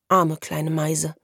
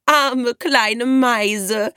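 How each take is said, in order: First: Slow, tender pity; compassionate, unhurried; sympathetic. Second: High, very drawn-out fake pity; jeering, stretched-out taunt; cackling mockery. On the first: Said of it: "sagte Merle mitfühlend". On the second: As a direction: mimic it in a sing-song squawk. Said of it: "gackerte Alina". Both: A narrator's reading.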